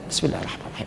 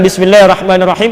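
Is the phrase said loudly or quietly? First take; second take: quietly; loudly. First: The phrase is said in a soft, quiet voice. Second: The phrase is said aloud in a loud voice. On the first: The basmala is recited but not aloud. "yang dibacakan tapi yang tidak dikeraskan" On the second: The basmala is recited aloud in prayer. "saya pengen dikeraskan aja"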